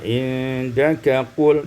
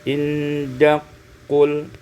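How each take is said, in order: First: The K sound is said separately. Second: The K sound merges into the Q.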